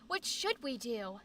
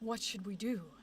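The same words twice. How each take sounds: First: It is said in a high-pitched voice. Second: It is said in a lower-pitched voice. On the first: The young boy character is speaking. "It's just his high-pitched voice" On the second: The older, confident character is speaking. "the Pharaoh's very"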